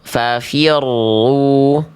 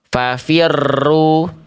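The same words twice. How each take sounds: First: The r is trilled moderately, neither strong nor faint. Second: The r is trilled heavily and too long. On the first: The speaker calls it right. "getarannya itu tetap ada, tapi tidak berlebihan, tapi nggak hilang" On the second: The speaker calls it wrong. "terlalu digetarkan secara berlebihan"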